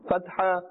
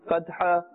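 Both takes have the same delivery.

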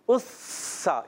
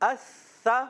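First: The consonant is a hissing s sound. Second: The consonant is a soft th sound. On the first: The speaker calls it wrong. "سا کا مخرج پہ زبان رکھتے ہیں, وہاں سے پڑھتے ہیں ... یہ غلط کر دیتے" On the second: The speaker calls it right. "تو ایسا نہیں کرنا"

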